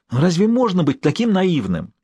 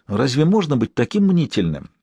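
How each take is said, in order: First: High-pitched, exasperated disbelief; involuntary exclamation. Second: Mild, soothing chiding; calm the worrier down gently. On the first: Maxim hears his friend refuse all diplomacy, exclaiming involuntarily. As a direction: exclaim it before you can stop yourself. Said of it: "невольно воскликнул Максим". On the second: Personal physician to his anxious patient, soothingly. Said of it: "успокаивающе заговорил его личный лекарь". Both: A narrator's reading.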